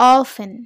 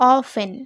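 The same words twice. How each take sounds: Both takes have the same delivery.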